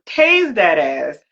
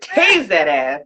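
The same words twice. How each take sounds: First: Tased that ass, each word slow and heavy; slow emphatic. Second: Tase that ass, punched low on Tase; low, clipped battle cry; punchy catchphrase. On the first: Telling friends the taser story, slow punchy emphasis. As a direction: lay it down slow, every word weighted. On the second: Reenacting the taser moment, low punchy catchphrase. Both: Shown as a demonstration. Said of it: "y'all can't see the way I did it".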